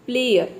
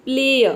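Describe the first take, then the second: First: प्लेयर with the r sounded at the end, "pleh-yer"; wrong rhotic player. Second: प्लेयर with a long final अ and no r sound; non-rhotic player. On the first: Teacher warns students against the rhotic प्लेयर, r pronounced. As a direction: say प्लेयर sounding the final r, the way to avoid. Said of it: "इस तरह से प्लेयर नहीं बोलना है". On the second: Teacher shows students the right प्लेयर, long non-rhotic ending. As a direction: say प्लेयर as "pleh-uh", drawing out the end with the r silent. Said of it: "थोड़ा अ को आपको लंबा बोलना है". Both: Shown as a demonstration.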